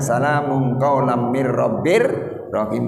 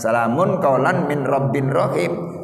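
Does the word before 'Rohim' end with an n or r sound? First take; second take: r sound; n sound. First: The n merges into r before Rohim. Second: The word before Rohim ends with a clear n. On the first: The speaker calls it right. "tapi bacanya ... begitu" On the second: The speaker calls it wrong. "nggak bakalan"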